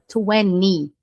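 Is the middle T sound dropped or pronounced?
dropped. The middle T sound is dropped. This is how American speakers say it. "no inglês americano, que é mais utilizado, a gente não fala esse T"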